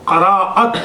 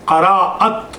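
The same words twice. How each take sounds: No difference in how they are said.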